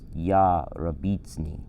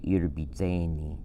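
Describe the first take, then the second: First: The word is slowed and split into parts. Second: The word is run together quickly as one unit. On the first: This is a simplified form for learners. "to slow it down and simplify it" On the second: This is how it is said today. "today they would say irbitseni"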